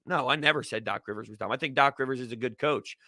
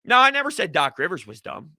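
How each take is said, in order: First: Softer, lower, fast throwaway repeat; quick quiet aside. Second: Said in the usual way. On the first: Shown as a demonstration. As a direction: mutter it again quickly under the breath.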